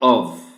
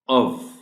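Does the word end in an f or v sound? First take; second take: v; v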